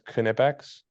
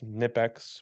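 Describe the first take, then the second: First: The word begins with a pronounced K sound. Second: The word begins with an N sound only.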